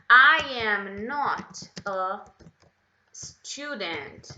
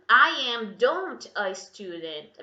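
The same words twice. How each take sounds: First: Very slow, loud start on "I am not a"; corrected sentence, very slow. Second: Slow, louder example with "don't" left in; wrong sentence, slow and loud. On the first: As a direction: dictate the fix word by word. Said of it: "e coloca o not". (frase corrigida bem devagar) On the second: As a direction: read the mistake clearly. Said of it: "Tira esse don't daí". (frase errada com "don't", devagar) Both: Shown as a demonstration.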